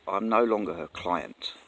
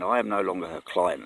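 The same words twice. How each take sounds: First: "no" leaned on in a slow, deliberate self-correction; "no" stressed, spelling it out; slow, careful correction, stress on no. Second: Said in the usual way. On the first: Shown as a demonstration. Getting the wording right for viewers, "no" stressed slowly. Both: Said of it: "Let's get this right".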